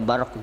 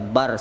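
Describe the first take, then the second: First: The word ends with a faint q sound. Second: The word ends on r with no q. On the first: "Ada qafnya sedikit" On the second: "boleh dibaca bar saja"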